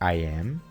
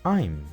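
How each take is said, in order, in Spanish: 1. Se dicen dos palabras separadas por completo. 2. Las palabras se unen en un solo sonido contraído. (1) "En vez de decir" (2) "mejor di"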